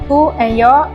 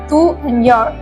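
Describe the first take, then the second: First: The words are pronounced fully. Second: The words are pronounced in reduced form. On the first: "Notice the full pronunciation to and your in original accent" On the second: "the reduced received pronunciation version"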